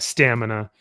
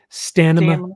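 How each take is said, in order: First: The word is said in a plain voice. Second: The word is said with an imitated lisp.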